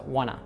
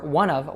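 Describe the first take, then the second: First: The phrase ends with a short uh sound. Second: The phrase ends with a clear v sound.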